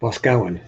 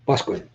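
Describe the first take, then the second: First: Boscawen as written, BOS-cow-en; spelling pronunciation. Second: Boscawen as BUSK-win, the letters silent; local pronunciation. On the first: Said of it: "is how it looks when it's written out". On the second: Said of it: "a couple letters are silent". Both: Shown as a demonstration.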